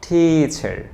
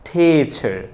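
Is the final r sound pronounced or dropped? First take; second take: pronounced; pronounced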